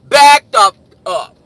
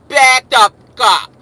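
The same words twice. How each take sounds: First: It is hollered loudly, as over music. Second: It is said tensely through tight lips. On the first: It must be heard over loud club music. "you gotta holler at his ass in the club" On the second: It shows he really means it. "you gotta say it with your lips tight"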